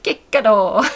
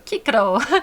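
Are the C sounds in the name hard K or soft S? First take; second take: hard K; hard K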